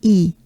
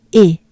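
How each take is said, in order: First: E as a long "ee"; the unwanted E, like "ee" in see; E with a wide smile; contrasting smiled E. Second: E as a pure French é; E said "ay" without a glide; French E sound. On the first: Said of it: "E and not E". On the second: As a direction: say E like the end of café. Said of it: "this is what we're looking for". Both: Shown as a demonstration.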